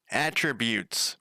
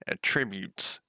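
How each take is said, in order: First: "Attributes" slowly, with the stress on AT; stress on first syllable. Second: "attributes" with the stress on TRIB; "attributes" stressed like the verb, on the second syllable. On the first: Shown as a demonstration. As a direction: say "Attributes" as AT-trib-yoots, drawn out. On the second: Real, not acted. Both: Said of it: "I never pronounce it, anything right".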